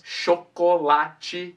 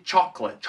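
First: "Chocolate" slow in four syllables, sho-ko-la-chi; Portuguese chocolate. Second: "chocolate" said as two syllables, CHOK-let; English chocolate. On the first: Teacher contrasting syllables with the English take. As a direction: spell out "Chocolate" the Portuguese way, slowly. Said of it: "quatro sílabas no português". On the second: Teacher contrasting syllables with the Portuguese take. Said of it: "somente duas sílabas no inglês". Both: Shown as a demonstration.

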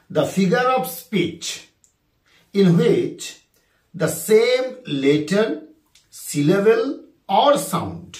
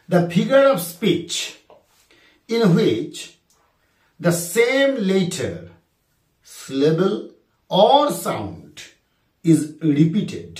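First: Drawn-out second reading; slow dictation repeated. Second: Drawn-out, word by word; slow dictation. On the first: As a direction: read it once more slowly for the class. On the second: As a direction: dictate the question slowly to students. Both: Shown as a demonstration. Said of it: "আরেকবার বলি".

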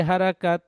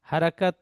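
No difference in how they are said.

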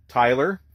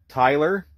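No difference in how they are said.

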